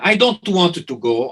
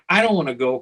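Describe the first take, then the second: First: It is said in an Italian accent. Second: It is said in the speaker's plain accent.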